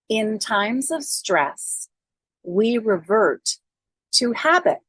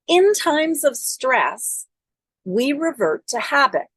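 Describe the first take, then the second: First: It is said slowly. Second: It is said at normal speed.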